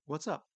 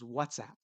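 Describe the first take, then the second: First: The stress falls on the second part. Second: The stress falls on the first part. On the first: It is a casual greeting to a friend. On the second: It is the name of an app.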